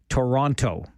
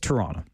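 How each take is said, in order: First: Both T sounds are pronounced clearly and crisply. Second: The second T sound is softened or dropped. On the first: The speaker is not from the city. The speaker calls it wrong. "when you are very emphatic about the T's" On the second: The speaker is from the city. The speaker calls it right. "It's Toronto"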